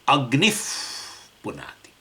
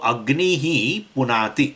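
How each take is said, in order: First: The first word ends with an F sound. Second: The first word ends with a breathy H sound. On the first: This is the form used when chanting. "you can replace that visarga with a, in a pronunciation of English F" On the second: The visarga is kept as written. "Visarga is there"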